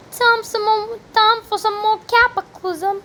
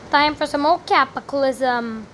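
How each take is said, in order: First: High-pitched, badly faked British; hammed-up mock British accent; terrible British accent. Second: Said in the usual way. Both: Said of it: "That was a terrible British accent".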